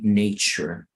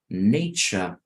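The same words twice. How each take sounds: First: It is said in an American accent. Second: It is said in a British accent. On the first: "in American will be nature" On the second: "la pronunciación en inglés británico"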